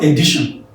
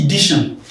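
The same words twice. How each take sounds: First: "edition" starting with E, "eh-DI-shon"; wrong edition pronunciation. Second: "edition" starting with I, "ih-DI-shon"; correct edition pronunciation. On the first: Teacher showing the error to avoid, "edition" as eh-DI-shon. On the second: Teacher showing the right sound, "edition" as ih-DI-shon. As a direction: close I sound opening "edition". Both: Shown as a demonstration. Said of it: "not edition".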